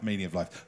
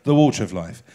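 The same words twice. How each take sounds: First: The wrong "meaning of life" repeated softly under the breath; muttered slip. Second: "water" stressed firmly, louder, falling tune on "the water of life"; corrected, emphatic. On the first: Lecturer quietly repeating his slip "meaning of life". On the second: Lecturer firmly correcting himself with "the water of life". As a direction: land the correction hard on "water". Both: Shown as a demonstration. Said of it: "sorry, the water of life".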